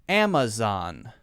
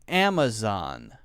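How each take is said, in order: No difference in how they are said.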